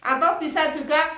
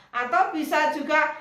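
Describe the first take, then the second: No difference in how they are said.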